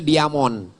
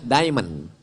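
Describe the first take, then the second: First: It is read letter by letter, as spelled. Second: It is said with an English pronunciation. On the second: "Cara bacanya"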